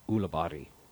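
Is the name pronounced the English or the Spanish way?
Spanish. The name is said with Spanish pronunciation. "if we were in Spain, would be pronounced"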